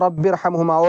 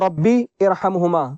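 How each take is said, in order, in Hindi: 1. ये दोनों शब्द जुड़कर बोले जाते हैं, बीच का स्वर हटाकर। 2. ये दोनों शब्द अलग-अलग बोले जाते हैं, बीच के स्वर के साथ। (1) "जब मिलाकर पढ़ेंगे" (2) "अगर अलग अलग पढ़ेंगे"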